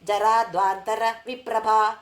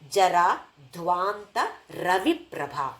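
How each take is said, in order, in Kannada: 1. ವಿರಾಮ 'jaradhvantara' ನಂತರ ಬರುತ್ತದೆ, 'ravi' ಅನ್ನು ಒಡೆಯುತ್ತದೆ. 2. ವಿರಾಮಗಳು 'jara' ನಂತರ ಮತ್ತು 'dhvanta' ನಂತರ ಬರುತ್ತವೆ. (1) "ಇದನ್ನು ನಾನು ಹೇಗೆ ಹೇಳ್ತಾ ಇದ್ದದ್ದು" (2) "ಹಾಗಲ್ಲ"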